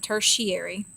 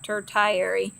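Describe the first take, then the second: First: The word is said in its usual spoken form. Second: The word is sounded out letter by letter. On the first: The speaker calls it right. "you pr pronounce it tertiary" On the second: The speaker calls it wrong. "It looks like tertiary"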